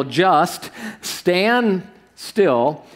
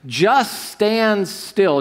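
First: Stretched very slowly, ending in a rise; even slower echo. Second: Drawn-out, deliberate command; slow quoted command. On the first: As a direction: let it hang, almost pleading. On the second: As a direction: lay each word down slowly, firm. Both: Shown as a demonstration. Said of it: "It says this".

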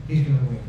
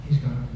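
No difference in how they are said.

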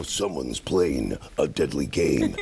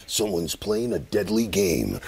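First: Very low, slow trailer announcer; deadly trailer voice. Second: Slow deep trailer announcer; low, slow dramatic preview voice; movie trailer voice. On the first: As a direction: growl it slowly like a thriller trailer. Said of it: "He has different inflections". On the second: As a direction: drag it out like a thriller trailer. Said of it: "that voice was in you". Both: Retold or imitated.

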